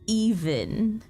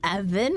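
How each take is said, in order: First: The name begins with a long 'ee' vowel. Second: The name begins with a short 'eh' vowel. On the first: The speaker calls it right. "it's meant to be even" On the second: The speaker calls it wrong. "I've been saying Evan"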